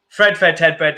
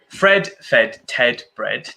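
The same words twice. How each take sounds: First: It is said at a very fast pace. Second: It is said fairly slowly.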